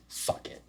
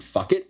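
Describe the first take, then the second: First: Soft unvoiced whisper to oneself; whispered resolve. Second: Much higher, punchy, rising "Fuck it"; defiant burst. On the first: Recalling his vow on the couch, a soft whisper. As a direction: murmur it like a private vow. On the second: Retold or imitated. Signing the gym contract, a high defiant shout.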